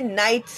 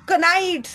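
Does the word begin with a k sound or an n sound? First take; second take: n sound; k sound. First: The word begins with an n sound. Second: The word begins with a k sound. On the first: The speaker calls it right. "उसे नाइट्स ही पढ़ेंगे आप लोग" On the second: The speaker calls it wrong. "कनाइट्स नहीं पड़ेगा कोई भी"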